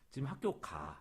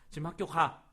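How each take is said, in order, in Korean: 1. 끝에서 음이 내려갑니다. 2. 날카롭고 세게 말합니다. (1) "하고 떨어져요. 그러면 이거는 평서문이 돼요" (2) "요거는 명령이 돼요"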